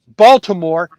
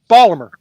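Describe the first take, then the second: First: Every syllable is said clearly and separately. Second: The syllables are slurred and flattened together. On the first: "instead of saying Baltimore" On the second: "we just slur everything together"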